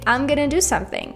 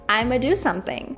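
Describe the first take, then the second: First: Going to is reduced to gonna. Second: I'm going to is reduced to I'ma. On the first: "you can say" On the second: "you can also say I'ma"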